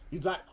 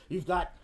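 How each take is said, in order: Both takes have the same delivery.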